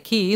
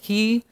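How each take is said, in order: First: The letter name is said like 'key'. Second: The letter name is said like 'he'. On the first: Some people say it this way. "Or sometimes people say key" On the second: This is how the letter is really said. "But it's really he, is how you say it"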